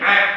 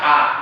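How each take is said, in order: First: It is squeezed from the middle of the throat. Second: It is a plain sound from the lower throat. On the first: The speaker calls it right. "Seharusnya ain" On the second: The speaker calls it wrong. "tapi dia baca a"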